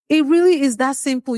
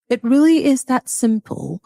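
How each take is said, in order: First: It is said in the speaker's normal accent. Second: It is said in a put-on British accent.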